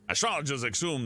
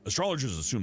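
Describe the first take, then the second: First: It is read in a put-on accent. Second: It is read in the speaker's plain voice.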